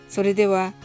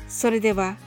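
No difference in how they are said.

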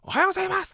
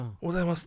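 First: It is said in a loud voice. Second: It is said at a normal volume.

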